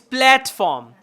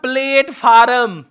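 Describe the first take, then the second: First: The first syllable sounds like 'plat'. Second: The first syllable sounds like 'plate'. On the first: The speaker calls it right. "it's platform" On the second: The speaker calls it wrong. "it's not platform"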